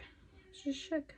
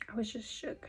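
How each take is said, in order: First: Higher, softer and slower put-on voice; softly mocked shock. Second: Hushed unvoiced whisper; whispered shock. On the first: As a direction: replay it in a dazed little voice. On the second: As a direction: breathe it out like a secret. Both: Shown as a demonstration.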